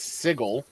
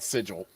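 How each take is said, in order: First: The g is pronounced hard, as in go. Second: The g is pronounced soft, as in gem. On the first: This is the pronunciation it is supposed to have. "I know that it's sigil" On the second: This is how the speaker habitually says it. "I will never not call that sigil"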